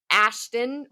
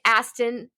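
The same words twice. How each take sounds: First: "Ashton" with a clear sh; corrected name. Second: "Aston" with a plain s, no sh; mispronounced name. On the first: Host correcting her slip, "Ashton" with sh in the middle. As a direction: say "Ashton" as ASH-tun, rising at the end. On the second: Host slipping on the actor's name, "Aston" with s for sh. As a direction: say "Aston" as ASS-tun, hissless middle. Name slip, then corrected. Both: Real, not acted.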